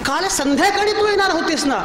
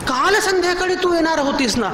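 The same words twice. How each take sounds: First: The stress falls on the word संध्याकाळी. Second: The stress falls on the word काल. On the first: The visit was expected in the evening, not the afternoon. "दुपारी कशी आलीस?" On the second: The visit was expected yesterday, not today. "आज कशी आलीस?"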